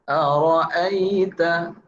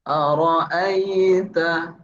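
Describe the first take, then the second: Both takes have the same delivery.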